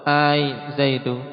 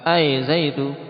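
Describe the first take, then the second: First: The opening vowel is long. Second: The opening vowel is short. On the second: "qasar pendek"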